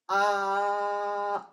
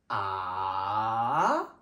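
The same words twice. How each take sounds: First: The pitch stays level and flat. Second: The pitch rises from low to high. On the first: "C'est tout plat" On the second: "Mon son, il est en train d'augmenter"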